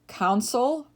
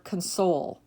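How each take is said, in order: First: CON-sole, first syllable stressed. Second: Kun-SOLE, second syllable stressed. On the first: Teacher reading word list to students, console as CON-sole. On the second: Teacher giving other pronunciation, console as kun-SOLE. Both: Shown as a demonstration. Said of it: "give you both pronunciations".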